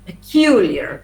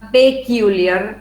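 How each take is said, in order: First: The first syllable is said weak and unstressed. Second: The first syllable is said strong and stressed. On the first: The speaker calls it right. "the p is unstressed" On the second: The speaker calls it wrong. "It's not peculiar"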